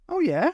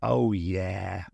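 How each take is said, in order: First: High, lilting casual query; breezy question with raised pitch; casual interest. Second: Low, drawn-out cocky yes; knowing, winking confidence; confident assurance. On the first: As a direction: ask it lightly, as if unbothered. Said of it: "said the doctor casually". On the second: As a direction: drop the pitch, utterly sure. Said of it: "with a confident wink". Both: A narrator's reading.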